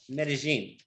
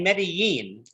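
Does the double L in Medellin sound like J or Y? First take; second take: J; Y. First: The double L sounds like an English J. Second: The double L sounds like an English Y. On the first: This is how locals of the valley say the name. "The L L being like a J or a G" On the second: This is how most Spanish speakers say the name. "The double L in, in Medellin is pronounced like a Y"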